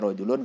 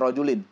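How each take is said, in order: First: The word ends with an 'un' sound. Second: The word ends with an 'in' sound. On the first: "boleh dibaca rojulun" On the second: "boleh juga baca rojulin"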